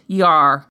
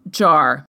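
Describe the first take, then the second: First: The name begins with a Y sound. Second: The name begins with a J sound. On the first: This is how Slavic speakers say it. "in Slavic-speaking countries, it is pronounced Yar" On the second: This is how English speakers say it. "we here in the English-speaking world would pronounce Jar"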